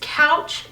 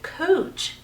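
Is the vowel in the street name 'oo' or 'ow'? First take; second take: ow; oo. First: The vowel sounds like 'ow' in cow. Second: The vowel sounds like 'oo' in moon. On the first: This is the ordinary spelling-based pronunciation. "It is spelled couch" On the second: This is how the locals say the name. "everyone around here calls it Cooch"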